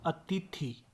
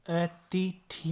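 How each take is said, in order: First: अतिथि softer, in short syllables; correct pronunciation. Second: अतिथि slowly split, vowels stretched; wrong pronunciation. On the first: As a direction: say अतिथि compactly, falling. (अतिथि का सही उच्चारण) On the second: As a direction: drag out each syllable of अतिथि. (अतिथि, खींचकर गलत उच्चारण) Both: Shown as a demonstration. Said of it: "अतिथि नहीं".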